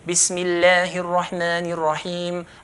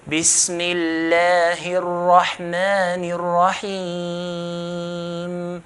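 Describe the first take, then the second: First: It is recited at a fast pace. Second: It is recited slowly and calmly.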